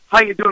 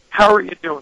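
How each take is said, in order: First: It sounds quick and offhand. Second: It sounds warm and sincere.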